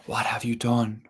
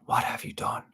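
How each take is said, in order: First: Mild reproach, otherworldly; reproachful spirit. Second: Breathy whisper of a spirit; whispered reproach. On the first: Water spirit scolding the proud druid, mild reproach. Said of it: "he could hear the reproach in this water spirit's voice". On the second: Water spirit echoing her question to the druid, whispered. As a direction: let the reproach fade to a whisper. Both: A narrator's reading.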